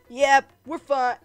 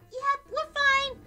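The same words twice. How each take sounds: First: It is said in the voice for Santa. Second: It is said in Clover's bubbly voice.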